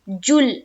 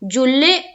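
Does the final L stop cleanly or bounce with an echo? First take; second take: stop; echo. First: The voice stops dead on the final L. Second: The final L bounces with an echoing release. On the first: The speaker calls it right. "जुल में भी आवाज रुक जाएगी" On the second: The speaker calls it wrong. "तो गलत है"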